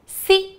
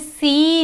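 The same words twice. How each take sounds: First: The vowel is short and light. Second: The vowel is long and heavy. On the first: The speaker calls it right. "इसको हल्की सी आवाज़" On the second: The speaker calls it wrong. "हमें सी नहीं बोलना"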